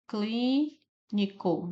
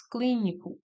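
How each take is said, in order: First: "Clínico" very slow, long "clí", pause, then the rest; syllable by syllable. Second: Said in the usual way. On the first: Shown as a demonstration. Teacher showing the stressed syllable, "Clínico" slowly divided. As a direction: draw out the first syllable of "Clínico" and separate it. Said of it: "cli é a sílaba tônica". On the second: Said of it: "Novamente, cli é a sílaba tônica".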